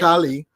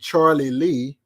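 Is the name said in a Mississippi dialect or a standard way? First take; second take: Mississippi dialect; standard. First: The name is said shortened, in a Mississippi dialect. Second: The name is said fully, in a standard way. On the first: "They say" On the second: "It's actually Charlie Lee"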